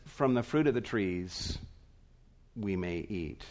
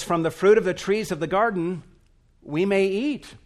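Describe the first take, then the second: First: Softer and lower, fading away; flat, deflated quote. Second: Brisk, lively and louder, pitched higher; bright quote. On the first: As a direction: say it as a bare, diminished afterthought. Eve simply says, reduced version. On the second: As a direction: read Eve's words with fast eager lift. Eve quotes God's words brightly. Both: Retold or imitated.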